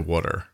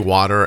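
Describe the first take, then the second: First: Water is said in a Philadelphia accent. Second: Water is said in a general American accent. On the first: "my Philly accent when I say water" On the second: "You say water"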